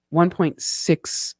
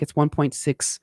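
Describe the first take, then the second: First: One point six, spelled out slowly; slow down so the number lands; slow restatement. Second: Said in the usual way. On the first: Shown as a demonstration. Vlogger repeating the conversion for viewers, slowly.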